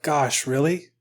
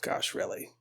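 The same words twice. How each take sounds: First: Softly spoken, rising question; hushed acted surprise, still voiced; quiet disbelief. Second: Barely audible, voiceless whisper; whispered echo. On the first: The Pope hearing God's threat, soft disbelief. The Pope's reply, then echoed. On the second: Acted. Visionary echoing the Pope's reaction, whispered disbelief. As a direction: echo it back in a tiny whisper.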